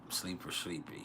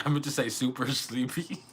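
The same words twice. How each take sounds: First: Mumbles "sleeper sleepy" as a tired slip, both words run together; slip of the tongue. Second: Says "super sleepy" cleanly through a laugh; corrected phrase. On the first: Real, not acted. Tired streamer slurring "sleeper sleepy" to chat. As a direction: lets "sleeper" come out instead of "super". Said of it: "I said sleeper sleepy". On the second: Shown as a demonstration. Streamer correcting her slip to chat, laughing. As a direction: fixes the slip, giggling on "super".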